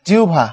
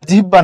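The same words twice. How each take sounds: First: The middle has a u-glide before bh. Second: The middle is a plain h-b cluster. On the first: The speaker calls it right. "এটা হলো উ" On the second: The speaker calls it wrong. "না"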